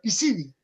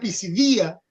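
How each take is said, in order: First: The stress does not fall on 'di'. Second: The stress falls on the 'di' syllable. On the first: The speaker calls it right. "pero es Pisidia" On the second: The speaker calls it wrong. "sería Pisidia si tuviera acento en la tía"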